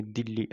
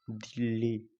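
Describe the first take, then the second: First: दिल्ली said briskly with a short, clipped-off ई; quick vowel. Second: दिल्ली with the ई sound drawn out a little longer; stretched vowel. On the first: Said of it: "आप तुरंत बोलेंगे". (दिल्ली को तुरंत, छोटा बोलें) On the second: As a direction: hold the vowel in दिल्ली a touch. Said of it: "इसमें थोड़ा sound खींचता है". (दिल्ली को थोड़ा खींचकर बोलें) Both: Shown as a demonstration.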